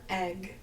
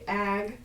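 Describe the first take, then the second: First: The vowel sounds like the one in beg. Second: The vowel sounds like the one in bag. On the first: "or egg, E G G" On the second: "writing A G G, which would be ag"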